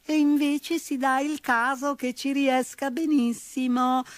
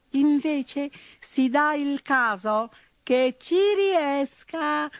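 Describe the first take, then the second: First: High peevish mouse squeak; petulant mouse. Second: High, slow, peevish squeak; petulant mouse. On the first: Mouse answering the bull again, petulant squeak. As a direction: retort again like a cheeky mouse. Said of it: "replicò ancora". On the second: Mouse retorting to the bull, petulant squeak. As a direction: answer back like a cheeky mouse. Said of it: "replicò petulante". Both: A narrator's reading.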